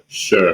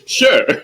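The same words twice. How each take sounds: First: The pitch falls at the end. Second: The pitch rises at the end. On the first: The writer agrees reluctantly. The speaker calls it wrong. "It's never sure" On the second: The writer is happy to agree. The speaker calls it right. "It's always gonna be an upward tone"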